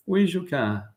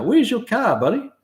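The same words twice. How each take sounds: First: Said in the usual way. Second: Playful high question. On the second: Real, not acted. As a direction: call it out like a cheeky mate. Playful reply to viewer's request.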